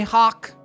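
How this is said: The word is said with a Seattle vowel. "people from Seattle say Hawk"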